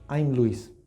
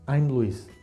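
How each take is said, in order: First: "I" and "am" are joined into one syllable. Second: "I" and "am" are joined into one syllable.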